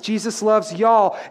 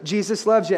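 First: It is said in a Texan accent. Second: It is said in a Canadian accent.

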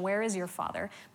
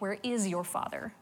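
First: The question is asked in a neutral tone. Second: The question is asked in a mocking tone. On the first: They are simply asking where his father is. "they ask him this loaded question" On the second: They are hinting that he is illegitimate. "But the inflection is more like"

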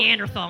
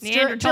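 First: The last syllable starts with a 'th' sound. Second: The last syllable starts with a plain 't' sound. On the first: The speaker calls it wrong. "I have a little bit of thaw in me" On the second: The speaker calls it right. "Like the Swedish pronunciation?"

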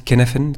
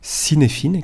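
First: The word is said with its Welsh pronunciation. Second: The word is read with French spelling sounds. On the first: The speaker calls it right. "mais ça se prononce Kaizen" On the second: The speaker calls it wrong. "on pourrait le prononcer en français à la française"

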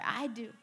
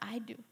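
First: It is said the loudest. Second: It is said louder.

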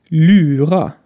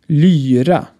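First: The vowel is a German-style ü sound. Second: The vowel is the Swedish y sound. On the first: It sounds like a word for a trickster. The speaker calls it wrong. "Mit einer verdeutschten Aussprache würde es so klingen" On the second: It names an ancient string instrument. The speaker calls it right. "Lyra hingegen ist ein antikes Saiteninstrument und hat ein Y"

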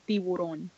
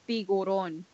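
First: The middle consonant is a b sound. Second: The middle consonant is a g sound. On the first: The speaker calls it right. "With a B" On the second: The speaker calls it wrong. "I've been saying it with the G my whole life"

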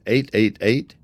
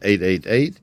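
First: The numbers are said slowly. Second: The numbers are said at normal speed.

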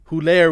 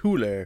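First: The name is said with a French pronunciation. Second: The name is said with a German pronunciation. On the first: "Huller would be the French pronunciation" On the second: "A German pronunciation"

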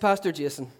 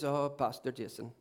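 First: It is said in the speaker's own accent. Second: It is said with an imitated Indian accent.

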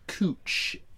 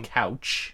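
First: The vowel sounds like the 'oo' in coo. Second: The vowel sounds like the 'ow' in cow. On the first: It names a local street. "They pronounce it Cooch, as if it has Two O's" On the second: It names a piece of furniture. "the way you would spell another name for a sofa"

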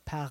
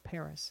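First: Paris is pronounced in an affected, fancy way. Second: Paris is pronounced in a plain, everyday way. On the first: The speaker sounds pretentious. The speaker calls it wrong. "Nobody says, you know, I'm going to go to Paris" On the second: The speaker sounds natural. The speaker calls it right. "We just say we're going to go to Paris"

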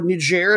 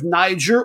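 First: Niger is said with a French pronunciation. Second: Niger is said with an English pronunciation.

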